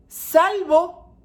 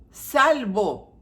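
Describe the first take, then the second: First: Salvo called out high and loud; emphatic exception. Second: Said in the usual way. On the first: Real, not acted. Preacher stressing the exception to parents, loudly. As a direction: ring out the word Salvo.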